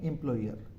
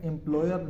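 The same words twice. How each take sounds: First: एम्प्लॉयर with a full oi glide, im-ploi-yer, lower and softer; the right एम्प्लॉयर, oi clear; correct version. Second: एम्प्लॉयर said the Indian way without the oi glide, im-plo-yer; the common mistaken एम्प्लॉयर; wrong version. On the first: Teacher giving the correct British pronunciation. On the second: Teacher showing students the wrong way to say it. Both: Shown as a demonstration. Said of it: "एम्प्लॉयर नहीं है".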